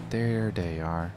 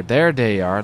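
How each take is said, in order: First: Drawn-out, softer and lower; slow low murmur. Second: Said in the usual way. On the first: Real, not acted. Gamer spotting his friends at the base, slow and soft. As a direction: savour it quietly, stretched out.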